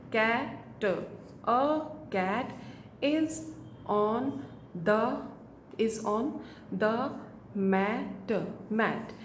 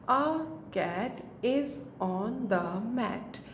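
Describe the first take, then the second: First: Each word said apart with pauses; halting word by word beginner read. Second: The whole sentence very slow and even; slow, steady sentence read-aloud; smooth slow read. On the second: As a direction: read it through slowly for a child. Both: Shown as a demonstration. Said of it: "इस तरह से बच्चा book reading करेगा".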